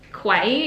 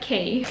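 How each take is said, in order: First: The word sounds like kway. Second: The word sounds like key. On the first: The speaker calls it wrong. "is how I say it in my head" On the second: The speaker calls it right. "I think it's pronounced like key"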